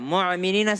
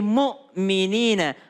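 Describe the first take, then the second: First: The middle consonant is a throaty ain sound. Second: The middle consonant is a light glottal stop. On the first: The speaker calls it wrong. "mu'minina salah" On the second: The speaker calls it right. "Kalau mukminin itu pakai hamzah, bukan pakai ain"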